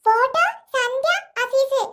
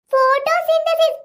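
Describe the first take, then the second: First: ഫോട്ടോ സന്ധ്യ അസീസ് said slowly as three separate words; child splitting ഫോട്ടോസിന്തസിസ് into ഫോട്ടോ സന്ധ്യ അസീസ്; wrong word. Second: ഫോട്ടോസിന്തസിസ് slowly, syllable by syllable, as one word; correct word. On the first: Acted. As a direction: mangle it into ഫോട്ടോ സന്ധ്യ അസീസ്, slow and deliberate. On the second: Shown as a demonstration. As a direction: spell out ഫോട്ടോസിന്തസിസ് slowly like a teacher. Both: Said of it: "ഫോട്ടോ സന്ധ്യ അസീസ് അല്ല".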